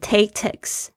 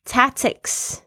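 First: The first vowel is a different sound. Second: The first vowel is the 'a' of 'cat'. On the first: The speaker calls it wrong. "不要念成tactics" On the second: The speaker calls it right. "tactics 那个A 是A 的声音"

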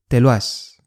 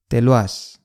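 Both takes have the same delivery.

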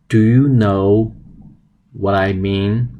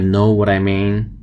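First: The full question is said at normal pace. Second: The shortened question is said quickly.

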